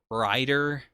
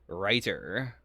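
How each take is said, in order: First: The middle t is soft and slurred, like a d. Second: The middle t is clearly and crisply pronounced. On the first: The speaker calls it wrong. "I was definitely just saying writer" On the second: The speaker calls it right. "I'm trying really hard to enunciate writer now"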